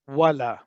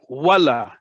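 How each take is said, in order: First: The word is said with a flat, level pitch. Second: The word goes upward, sounding like an exclamation. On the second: "upwards means exclamation point"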